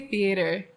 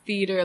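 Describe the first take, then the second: First: The middle vowel sounds like 'ay' in hey. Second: The word sounds like 'feeder' with no 'ay' sound. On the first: "I say theater" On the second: "theater like bird feeder"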